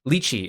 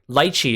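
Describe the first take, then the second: First: It is said like the Mandarin pronunciation. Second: It is said like the Cantonese pronunciation. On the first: "lychee is closer to the Mandarin pronunciation" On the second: "lychee is closer to the Cantonese pronunciation"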